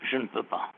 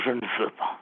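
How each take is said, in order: First: "je ne peux pas" dropped low and very soft; low and soft, the forbidden phrase; soft low wrong phrase. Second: "je ne veux pas" low and soft; low quiet "veux"; soft low right phrase. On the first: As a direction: say it low, almost under breath. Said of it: "il ne faut pas dire". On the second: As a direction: softly give the right phrase. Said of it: "Il faut dire". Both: Shown as a demonstration.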